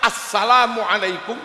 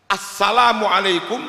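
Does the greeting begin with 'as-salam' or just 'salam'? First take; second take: as-salam; as-salam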